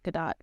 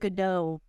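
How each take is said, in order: First: The final T is clearly pronounced. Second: The final T is left silent. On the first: The speaker calls it right. "where the T is actually prominent" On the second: The speaker calls it wrong. "It's not Godot. It's not silent"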